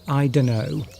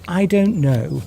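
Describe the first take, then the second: First: The words run together into a reduced form. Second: Each word is said separately in full. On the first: It is a casual, slangy way of saying it. "that's a sort of a slang way of saying I don't know" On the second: It is the standard, careful way of saying it. "would be the correct way to pronounce it"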